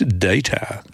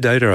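First: It is said the non-American way. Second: It is said the American way.

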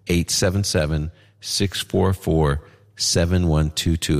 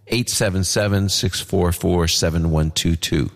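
First: The number is said more slowly. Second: The number is said at normal, faster speed.

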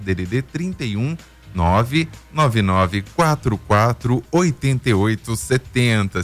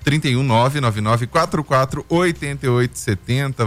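First: The number is said very slowly. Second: The number is said at normal speed.

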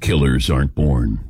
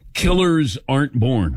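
First: It is said in a dramatic announcer voice. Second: It is said in his normal speaking voice.

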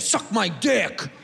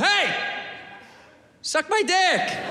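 First: It is said in a hostile, negative tone. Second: It is said in a nice, friendly tone.

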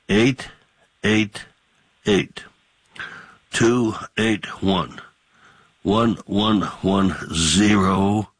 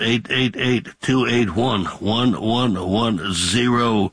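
First: The number is said slowly. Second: The number is said fast.

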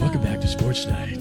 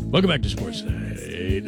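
First: It is said in a golf announcer voice. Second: It is said in a jazz DJ voice.

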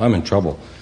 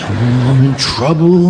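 First: It is said calmly, without much emotion. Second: It is said with strong childish alarm.

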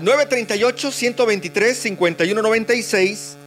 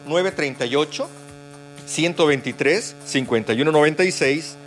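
First: The number is said at normal speed. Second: The number is said more slowly.

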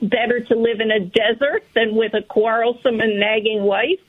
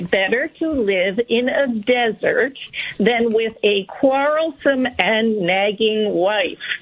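First: It is read at a quicker pace. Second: It is read at a slower pace.

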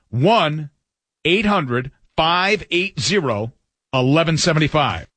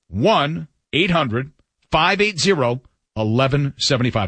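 First: The number is read slowly. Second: The number is read at normal speed.

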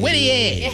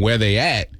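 First: It is said wide and stretched out. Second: It is said in a plain, ordinary way.

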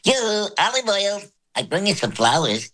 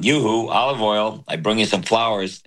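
First: It is said in a high voice. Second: It is said in a low voice.

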